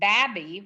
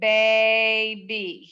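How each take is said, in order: First: The first vowel is short, closed by the b. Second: The first vowel is long, like its name. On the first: The speaker calls it wrong. "if we put the break after the B, it would be babby" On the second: The speaker calls it right. "Hear the A?"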